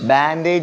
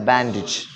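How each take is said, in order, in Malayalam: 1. അവസാന സിലബിളിൽ 'ay' സ്വരമാണ്. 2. അവസാന സിലബിളിൽ ചെറിയ 'ih' സ്വരമാണ്.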